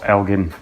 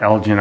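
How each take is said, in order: First: "Elgin" with a hard g, as in give; "Elgin" pronounced EL-ghin; hard-g pronunciation. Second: "Elgin" with a soft g, as in gin; "Elgin" pronounced EL-jin; soft-g pronunciation. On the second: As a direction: say "Elgin" with a j sound in the middle. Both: Shown as a demonstration. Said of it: "I, I, I say El".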